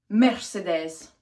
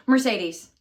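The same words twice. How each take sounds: First: "Mercedes" said as mair-seh-DEZ; foreign-style pronunciation. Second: Said in the usual way. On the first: Shown as a demonstration. Vlogger trying out the team's name, foreign-style pronunciation. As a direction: say "Mercedes" with short e's, ending in dez.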